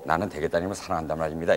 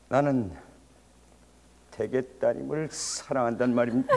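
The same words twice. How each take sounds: First: It is said in a plain, ordinary way. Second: It imitates Shin's characteristic way of speaking.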